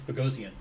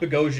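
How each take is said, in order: First: The name is said the Armenian way. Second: The name is said the common Anglicized way. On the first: The speaker calls it right. "it's Bogosian" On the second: The speaker calls it wrong. "it's not Bogosian"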